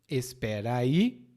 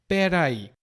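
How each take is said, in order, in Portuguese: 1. As duas palavras são ditas por extenso. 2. As palavras se juntam em uma forma curta só. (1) "é a combinação de duas palavras. Espera aí" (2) "E pera aí, ou peraí, é a combinação de duas palavras"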